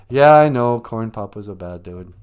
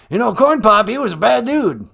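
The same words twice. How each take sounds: First: Said in the usual way. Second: Loud, higher blustering politician; Joe Biden. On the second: Acted. President rambling to the host about a rival, blustering. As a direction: launch loudly into the old yarn. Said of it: "President Joe".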